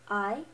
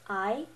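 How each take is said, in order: First: The pitch rises like a question. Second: The pitch rises like a question.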